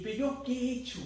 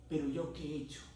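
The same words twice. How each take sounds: First: Reclamo agudo de enojo imitado; enfurecido, relatado. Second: Said in the usual way. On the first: Retold or imitated. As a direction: recrea una protesta frustrada, con la voz alta. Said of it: "estaba enfurecido". (reclamo enojado en tono agudo)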